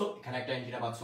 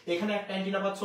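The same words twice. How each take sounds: First: Soft echo. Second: Said in the usual way. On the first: Shown as a demonstration. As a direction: lower and softer mirrored repeat. (নিচু গলায় আস্তে প্রতিধ্বনি) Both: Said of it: "এখানেও যা পাচ্ছ, এখানেও তা".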